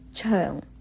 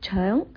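First: The syllable is said with a changed tone. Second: The syllable keeps its basic tone. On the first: "第二个呢就发成为肠" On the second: "你把肠发音成为肠"

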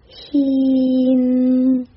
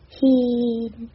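First: The final nasal is clear and fully finished. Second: The final nasal is weak and not finished. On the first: The speaker calls it right. "应该是him，很明显的后鼻音him" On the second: The speaker calls it wrong. "他的发音是him him"

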